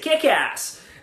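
It is said in an American accent.

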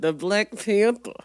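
It is said in a New York-like accent.

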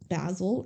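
The name is said with a British accent.

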